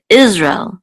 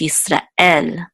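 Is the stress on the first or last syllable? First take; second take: first; last. First: The stress is on the first syllable. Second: The stress is on the last syllable.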